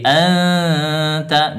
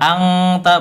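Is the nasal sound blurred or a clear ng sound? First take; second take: blurred; clear ng. First: The nasal is blurred and hidden toward t. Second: The nasal is a full ng sound. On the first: The speaker calls it right. "tapi anta disamarkan" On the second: The speaker calls it wrong. "juga bukan angta, bukan"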